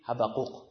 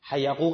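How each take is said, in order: First: The name has a b sound after the first vowel. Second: The name has a y sound after the first vowel. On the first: "اونا میگن چی؟" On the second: This is the form Iranians commonly use. "مثلا ما مثلا حیقوق نبی میگیم"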